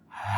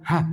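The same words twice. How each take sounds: First: The sound is held back briefly before release. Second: The sound is released quickly without holding. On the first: The speaker calls it right. "tidak cepat tetapi ada uh, tertahan sedikit" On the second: The speaker calls it wrong.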